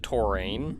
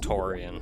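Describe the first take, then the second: First: The name ends in one syllable rhyming with 'rain'. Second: The name ends in two syllables, 'ee-an'. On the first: This is how it was said in childhood. The speaker calls it wrong. "As a child, I always pronounced it Torain" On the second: This matches the actual spelling. The speaker calls it right. "but it's I A N, it's Torian"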